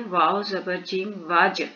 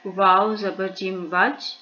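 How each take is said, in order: First: वाज with the final ज bounced and shaken; qalqala. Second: वाज read with the ज held still, no qalqala; flat वाज without bounce; wrong reading. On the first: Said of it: "जीम को भी हमने उसी तरह से हिलाया है". ("वाज" में ज को हिलाकर क़लक़ला के साथ) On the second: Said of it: "वाज नहीं पढ़ेंगे". (क़लक़ला के बिना ग़लत "वाज") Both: Shown as a demonstration.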